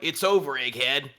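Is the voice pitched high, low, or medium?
medium. The voice is pitched somewhat lower.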